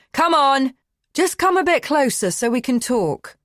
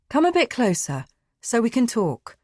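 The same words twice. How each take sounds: First: Loud, urgent call; shouting. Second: Calmer. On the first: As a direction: shout it to make her stop. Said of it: "He shouts again". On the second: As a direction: ease off and coax her closer. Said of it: "He's calmer". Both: Acted.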